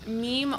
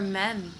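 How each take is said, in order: First: The vowel is a long ee sound. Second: The vowel is a short e sound. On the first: The speaker calls it right. "Makes it a long e sound" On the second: The speaker calls it wrong. "Some people say mem"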